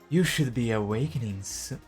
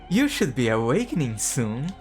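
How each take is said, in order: First: It is said in a soft motherly voice. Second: It is said in a bold charismatic voice.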